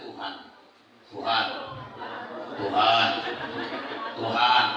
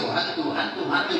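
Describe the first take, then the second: First: The word is repeated slowly and clearly. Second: The word is repeated fast and clipped to 'tuh'. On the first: It is still acceptable. "masih pelan" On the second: It becomes disrespectful. "cepetan lagi, jadi kurang ajar kita"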